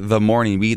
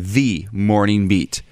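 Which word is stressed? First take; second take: Morning; the. First: The word "the" is unstressed and reduced. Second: The word "the" is strongly stressed. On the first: "whoever does that intro for us doesn't say the Morning Beat" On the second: "They say the Morning Beat. Which reminds me of my alma mater, The Ohio State University"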